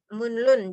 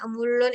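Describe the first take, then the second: First: An n is followed by a distinct l. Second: The middle consonants are both pronounced as l. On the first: "Jadi niannya dibaca, realnya juga dibaca" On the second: "Ada yang mereka bilangnya emulon itu juga ada"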